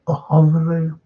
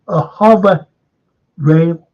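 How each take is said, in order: First: Said in the usual way. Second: "hover" lauter und höher betont, dann "rail" nachgeschoben; stress on hover. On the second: Shown as a demonstration. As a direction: punch the word hover, then land rail firmly.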